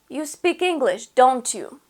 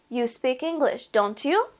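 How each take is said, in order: First: The pitch falls at the end. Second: The pitch rises at the end.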